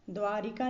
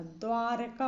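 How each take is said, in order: First: द्वारिका with RI in the middle; wrong extra I. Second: द्वारका with no I after R; correct, no I. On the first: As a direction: say द्वारिका as "dwaa-ri-kaa". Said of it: "नहीं होता". (द्वारिका के बीच में "रि") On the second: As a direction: say द्वारका as "dwaar-kaa". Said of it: "होता है". (द्वारका में "र" बिना मात्रा) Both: Shown as a demonstration.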